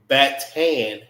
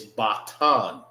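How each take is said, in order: First: Batan with flat 'a' as in cat, BAT-TAN; wrong pronunciation. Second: Batan with open 'ah' vowels, bah-TAHN; correct pronunciation. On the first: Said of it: "it's not". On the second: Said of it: "It's batan". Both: Shown as a demonstration.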